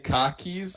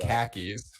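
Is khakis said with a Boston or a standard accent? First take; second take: Boston; standard. First: It is said in a Boston accent, like 'car keys'. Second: It is said in a standard, non-Boston accent. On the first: "I say khakis ... Sounds like car keys" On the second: "instead of"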